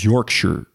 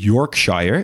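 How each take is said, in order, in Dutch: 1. Het einde is een gereduceerde 'shuh'. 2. Het einde is een volledige 'shire'. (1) "het is Yorkshire" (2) "Dus het is niet Yorkshire"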